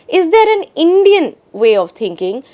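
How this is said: The stress falls on the word Indian. "is now focused on the word Indian"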